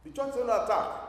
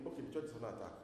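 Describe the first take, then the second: First: Louder and higher, sounding the alarm; urgent proclamation; emphatic alarm. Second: Softer, unmoved mumble; bored shrug of a listener; indifferent shrug. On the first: Shown as a demonstration. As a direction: announce it like a warning. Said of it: "So if I said to you now". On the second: Retold or imitated. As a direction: say it like it means nothing to you. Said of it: "you are going to be thinking".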